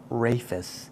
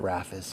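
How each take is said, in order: First: The first vowel is long, as in 'rafe'. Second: The first vowel is short, as in 'raff'. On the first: Other people say it this way. "I've heard it called Rafis" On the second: The speaker says it this way. "which is a Raf sound instead of a Rafe sound"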